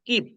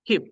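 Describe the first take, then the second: First: The k is plain, without a puff of air. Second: The k is aspirated, with a puff of air. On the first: "আগে বলতাম কিপ" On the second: "এখানে কিছুটা ক্ষয়ের মতো করে বলার চেষ্টা করছি"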